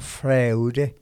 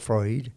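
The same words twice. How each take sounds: First: The name is read letter by letter as spelled. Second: The name is said with its native pronunciation. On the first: The speaker calls it wrong. "usted lo ve escrito como Freud" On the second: The speaker calls it right. "pero se pronuncia Freud"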